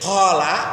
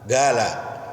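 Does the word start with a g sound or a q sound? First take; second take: q sound; g sound. First: The first sound is a deep throat q. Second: The first sound is a hard g.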